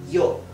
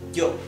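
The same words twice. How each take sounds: First: It starts with a soft y glide. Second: It starts with a firm, j-like consonant. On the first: "pronounce it like if it were an I, E" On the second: "unsticking the back of your tongue from your back upper palate"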